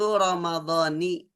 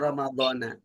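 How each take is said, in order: First: The word ends with an i vowel. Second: The word ends with an a vowel. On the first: The speaker calls it right. "Yang betul itu Ramadhani" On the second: The speaker calls it wrong. "bukan Ramadhana"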